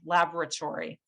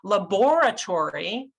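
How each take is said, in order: First: The stress is on the first syllable. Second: The stress is on a later syllable. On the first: The speaker calls it right. "That ah sound is in the first syllable, and that's what makes the word sound like the word" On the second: The speaker calls it wrong. "we put that, that stress in the different part, it would sound completely different"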